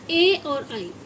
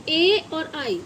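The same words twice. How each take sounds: The two takes are said the same way.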